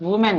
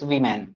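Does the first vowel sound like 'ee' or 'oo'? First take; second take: oo; ee. First: The first vowel sounds like 'oo'. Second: The first vowel sounds like 'ee'. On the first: The speaker calls it wrong. "But वूमैन नहीं होता है" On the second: The speaker calls it right. "It's वीमैन"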